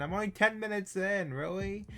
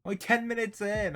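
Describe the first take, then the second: First: High, disbelieving repeat of "ten"; can't believe it's only been ten; higher, exasperated second take; incredulous. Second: Dismayed disbelief. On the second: Dismayed at how little time passed. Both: Real, not acted.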